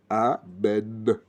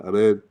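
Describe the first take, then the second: First: The word is said with every sound clearly articulated. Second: The word is mumbled with slack, weak lips. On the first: The speaker calls it right. "Bien prononcer le A, le B et le Noun" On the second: The speaker calls it wrong. "C'est pas Amen"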